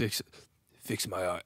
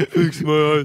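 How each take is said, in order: First: Very low, quiet brute voice; attempted low tough-guy impression; Drax. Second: Loud attempt at a brute voice; loud mock tough-guy voice; Drax. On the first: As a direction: drop right down to a soft bass. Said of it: "he's low". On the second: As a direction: push it out forcefully, half-joking. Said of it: "in the voice of Drax".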